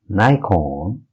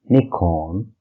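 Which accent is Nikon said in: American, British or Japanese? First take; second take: American; British. First: It is said with an American pronunciation. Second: It is said with a British pronunciation. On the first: "in U S" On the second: "in U K"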